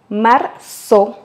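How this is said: The z sounds like an s. This is how it is said in Latin America. "en Amérique latine, on le prononce comme s'il y avait deux E"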